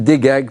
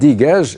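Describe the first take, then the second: First: The word ends in a hard 'g' sound. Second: The word ends in a soft 'zh' sound. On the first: "on ne peut pas prononcer J en égyptien, on dit ge" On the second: "prononcé à la tunisienne"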